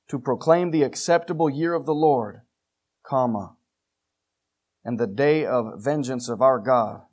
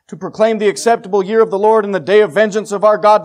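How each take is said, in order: First: It stops with a pause after Lord. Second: It runs on without a pause after Lord.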